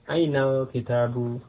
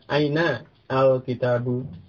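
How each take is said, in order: First: The words are joined, with the article's alif dropped. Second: The words are separated, with the article's alif pronounced. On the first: "baiknya itu bersambung" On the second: "dibaca terpisah"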